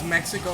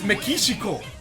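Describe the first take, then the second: First: The word has an English pronunciation. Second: The word has a Japanese pronunciation. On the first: "it's Mexico in English" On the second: "And in Japanese, it's Mexico"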